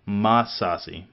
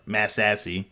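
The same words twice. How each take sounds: First: "Massassi" with open ah vowels, mah-SAH-see; Massassi said plainly. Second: "Massassi" with flat Texan a's, ma-SASS-ee; Texas pronunciation. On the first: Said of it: "it's saying that like Mississippi". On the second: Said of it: "or Massassi if you're from Texas". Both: Shown as a demonstration.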